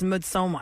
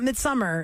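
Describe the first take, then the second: First: The middle syllable sounds like 'som'. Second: The middle syllable sounds like 'sum'. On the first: The speaker calls it right. "It's Midsommar. S O M M A R" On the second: The speaker calls it wrong. "It's not Midsummer"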